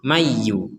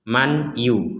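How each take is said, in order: First: The n merges into y without nasal hum. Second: The n is pronounced clearly before the y. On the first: "Kalau masuk tapi gak ada dengungnya akan menjadi mayu" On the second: "itu jelas"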